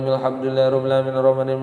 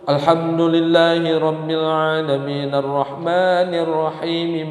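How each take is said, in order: First: It is rushed through very fast, sounds dropped. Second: It is recited somewhat faster, words joined. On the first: The speaker calls it wrong. "sepuluh menit bisa dua puluh tiga rakaat" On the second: The speaker calls it right. "Boleh sedikit cepat diwasal"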